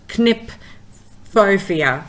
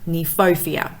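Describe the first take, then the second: First: A K sound is heard at the start. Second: No K sound is heard at the start. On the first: The speaker calls it wrong. "I might call it Knipphofia" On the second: The speaker calls it right. "the K is silent, so it's Kniphofia"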